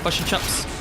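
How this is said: The vowels are centralized, close to 'fush and chups'. "bush and chops rather than"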